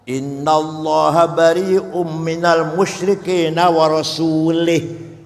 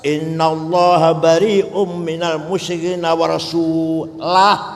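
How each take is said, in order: First: The last word ends with an i vowel. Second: The last word ends without an i vowel. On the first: God disowns the idolaters and disowns the Prophet. The speaker calls it wrong. "ada orang baca Quran salah" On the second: God and the Prophet both disown the idolaters. The speaker calls it right. "Berarti harus"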